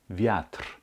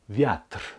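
First: The word ends cleanly on the r. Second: The word ends cleanly on the r.

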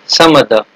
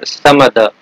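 First: The word 'of' is reduced to a schwa. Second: The same.

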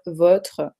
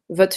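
First: The R in votre is clearly pronounced. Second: The R in votre is left out. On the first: This is the careful standard form. "Normalement, faut dire votre" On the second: This is casual fast speech. "Parfois, on ne dit même pas le R"

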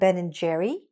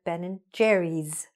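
First: There is no S sound at the end. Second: There is an S sound at the end. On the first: The speaker calls it wrong. "Not Ben and Jerry" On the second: The speaker calls it right. "but Ben and Jerry's, right? You hear the S?"

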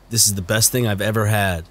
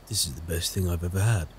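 First: It is spoken with an American accent. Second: It is spoken without an American accent. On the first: The speaker calls it right. "He has an American accent" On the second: The speaker calls it wrong. "Is that what he sounds like?"

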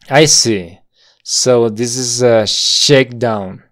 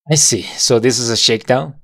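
First: The sentence is spoken slowly and connected. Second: The sentence is spoken faster and connected. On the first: "Todo junto y muy lento" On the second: "Ahora lo decimos un poco más rápido"

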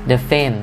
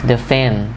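No difference in how they are said.

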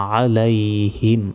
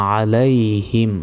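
The two takes are said the same way.

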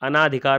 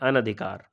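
First: The vowel after 'an' is a long 'aa'. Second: The vowel after 'an' is a short 'a'. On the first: The speaker calls it wrong. "अनाधिकार नहीं होता है" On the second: The speaker calls it right. "क्या होता है? अनधिकार।"

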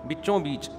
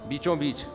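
Both takes have the same delivery.

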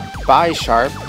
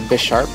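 First: The name does not sound like 'bishop'. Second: The name sounds like the word 'bishop'.

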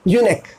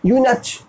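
First: The word ends with a 'k' sound. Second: The word ends with a 'ch' sound. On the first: The speaker calls it right. "क्या कहेंगे आप?" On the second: The speaker calls it wrong. "पर नहीं"

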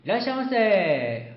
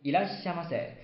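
First: It is shouted excitedly with a stretched ending. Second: It is said plainly at normal length.

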